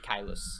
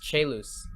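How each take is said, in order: First: It is said with the classical Latin pronunciation. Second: It is said with the church Latin pronunciation. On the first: "classical Latin, it would be Caelus" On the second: "I'm using ecclesiastical Latin"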